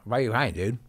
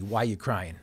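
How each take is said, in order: First: Imitated slurring, words run together; slurred speech. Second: Said in the usual way. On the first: Retelling the question that changed his life, in slurred speech. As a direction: lightly slur it like a brain-injured man. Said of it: "in his slurred speech". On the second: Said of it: "I understood that he was asking me".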